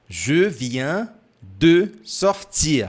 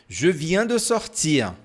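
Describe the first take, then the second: First: The phrase is said at a slower pace. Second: The phrase is said at a faster pace.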